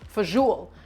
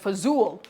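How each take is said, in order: First: It has three syllables, ending in 'joli'. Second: It is clipped to two syllables, ending in 'zool'.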